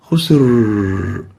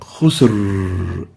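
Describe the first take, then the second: No difference in how they are said.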